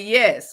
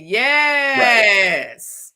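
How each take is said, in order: First: The word is said short and plain. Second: The final s sound is drawn out long.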